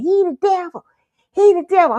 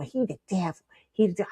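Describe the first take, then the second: First: Put-on high, loud little-girl accusation; insistent child. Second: Inner thought. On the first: Little girl accusing a man as grandpa apologizes, insistent. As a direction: blurt it out high, louder the second time. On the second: Retold or imitated. Little girl inside the church thinking to herself, hushed. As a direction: say it softly to yourself.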